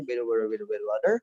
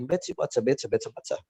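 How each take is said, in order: First: Fast American tongue-twister with soft D for T; quick, linked American mumble; American accent. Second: British tongue-twister with crisp, hissy T's; British accent, T's almost TS. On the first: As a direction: rattle it off American, all flapped T's. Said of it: "orang Amerika ya bilangnya". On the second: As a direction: sharpen every T, British style. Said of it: "Kalau orang British bilang". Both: Shown as a demonstration.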